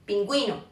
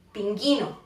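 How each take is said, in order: First: Pingüino with an audible W after the G; U pronounced. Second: Pinguino with no W, said GHI; silent U. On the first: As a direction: say Pingüino, sounding the ü as GWI. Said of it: "se utiliza la U con diélisis". (Pingüino, pronunciando la U) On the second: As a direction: say Pinguino as pin-GHEE-no. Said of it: "se diría pinguino en lugar de pingüino". (Pinguino, con la U muda) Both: Shown as a demonstration.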